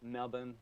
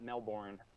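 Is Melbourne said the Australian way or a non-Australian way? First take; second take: Australian; non-Australian. First: It is said in the local Australian pronunciation. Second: It is said in a non-Australian pronunciation. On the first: The speaker calls it right. "Anybody in Australia notice I just pronounced that properly?" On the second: The speaker calls it wrong. "It's not Melbourne"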